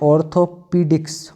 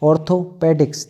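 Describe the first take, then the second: First: The third syllable has a long 'ee' vowel. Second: The third syllable has a short 'e' vowel. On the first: "इसके हिसाब से करना हो तो ऐसे कर सकते हैं" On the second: "डायरेक्ट ऐसे पढ़ना हो तो ऐसे भी पढ़ सकते हैं"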